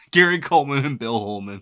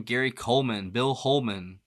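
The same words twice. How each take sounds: First: Louder, tickled by the rhyming names; amused repeat. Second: Said in the usual way. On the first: Real, not acted. Reader apologizing for being five, amused and louder.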